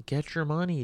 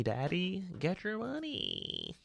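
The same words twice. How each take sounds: First: Said in the usual way. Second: High, slow, much softer "get your money"; put-on cooing voice. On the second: Mocking the star chasing cash in a slow, high, soft voice. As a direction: coo it like a teasing hype-man, slowly. Repeating a catchphrase.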